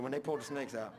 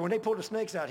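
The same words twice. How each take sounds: First: Said in the usual way. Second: Loud, high burst of remembered alarm; mock alarmed shout; retold exclamation. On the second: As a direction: blurt it like the memory still spooks him. Father's retold fright at snakes.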